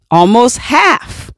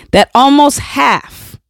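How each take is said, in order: First: Almost half said slowly, word by word; slow repeat. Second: Emphatic shout. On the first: Repeating the statistic so it lands, slowly. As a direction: let it sink in slowly. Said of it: "repeating the statistic". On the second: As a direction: punch almost half out. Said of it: "stressing the statistic". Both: Shown as a demonstration.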